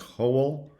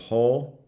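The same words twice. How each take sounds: First: A schwa is inserted before the final consonant. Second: No schwa is inserted before the final consonant. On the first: "you might have something like whole" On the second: "instead of whole"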